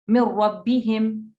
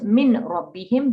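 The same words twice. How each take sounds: First: The n sound merges into the r. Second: The n sound is pronounced clearly. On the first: The speaker calls it right. "it blends completely ... No N sound there" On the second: The speaker calls it wrong.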